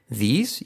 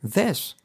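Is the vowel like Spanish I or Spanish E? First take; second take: Spanish I; Spanish E. First: The vowel sounds like a Spanish I. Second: The vowel sounds like a Spanish E. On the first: "vamos a hacer una I española" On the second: "y otro una E"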